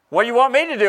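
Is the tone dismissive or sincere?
dismissive. It sounds dismissive and exasperated. Nothing can be done to help. "we might say it like this. ... I can't do nothing about it"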